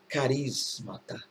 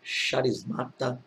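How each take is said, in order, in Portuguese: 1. A palavra começa com som de 'k'. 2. A palavra começa com som de 'sh'. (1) "a pronúncia, caso você queira, é carismata" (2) "Pelo fato de estar com C H"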